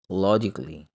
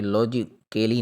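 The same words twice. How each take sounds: First: लॉजिकली said as lo-jik-li, no vowel before li; correct pronunciation. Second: लॉजिकली with the extra a sounded, lo-ji-ke-li; wrong pronunciation. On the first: Teacher giving students the right form, lo-jik-li. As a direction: say लॉजिकली cleanly in three syllables. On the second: Teacher showing students the mistake, a sounded extra a. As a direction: say लॉजिकली the wrong way, a vowel before li. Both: Shown as a demonstration. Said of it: "हम ये लॉजिकली नहीं पढ़ेंगे".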